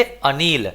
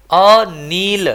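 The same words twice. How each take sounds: First: Said in the usual way. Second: अनील said slowly, first vowel as short अ, long ई; drawn-out Anil. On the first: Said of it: "क्या पढ़ेंगे?". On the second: Shown as a demonstration. Teacher to students: slow model reading of अनील. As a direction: stretch out अनील, opening with अ. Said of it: "क्या पढ़ेंगे इसको?".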